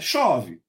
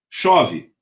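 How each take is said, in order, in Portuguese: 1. É dita de forma contida e atenuada. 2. É dita como uma afirmação simples e neutra. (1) "chove pouco" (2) "chove é a constatação de um fato"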